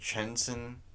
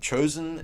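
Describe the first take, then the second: First: The name is said as Chensin. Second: The name is said as Chosin. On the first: The speaker calls it right. "like Chensin Reservoir or something like that" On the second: The speaker calls it wrong. "Chosin is not even the right way to pronounce that reservoir"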